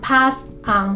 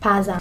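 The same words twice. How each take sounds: First: The two words are said separately. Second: The two words are linked together. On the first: The speaker calls it wrong. "Pas is not pas un" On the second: The speaker calls it right. "If we speak it in a more fluent way, you say pas un"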